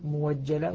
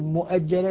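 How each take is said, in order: First: The glottal stop is replaced by a w sound. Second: A glottal stop follows the first syllable mu. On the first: This is the reading that replaces the hamza. "يقول موجلة" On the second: This is the reading that keeps the hamza. "بدل ما يقول مؤجلة"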